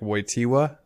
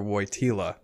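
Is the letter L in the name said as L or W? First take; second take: W; L. First: The L in the name sounds like a W. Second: The L in the name sounds like an L. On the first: "a W sound" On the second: "an L sound"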